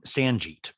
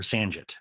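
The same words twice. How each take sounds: First: Sanjit said with a long "jeet" ending; Sanjit, second vowel as in "see"; pronunciation variant. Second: Sanjit said with a short "jit" ending; Sanjit, second vowel as in "sit"; pronunciation variant. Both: Acted. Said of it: "that's the name".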